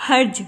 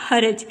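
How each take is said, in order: First: "حرج" as harj, no vowel after the r; wrong pronunciation. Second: "حرج" as haraj, a after the r; correct pronunciation. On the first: Teacher shows students the faulty reading, "حرج" said as one-syllable harj. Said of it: "یہ حرج نہیں ہوتا". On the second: Teacher gives students the correct reading, "حرج" said as ha-raj. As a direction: say "حرج" in two syllables, ha-raj. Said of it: "رے کے اوپر بھی زبر". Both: Shown as a demonstration.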